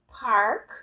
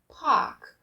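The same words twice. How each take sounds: First: It is said in an American accent. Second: It is said in a British accent.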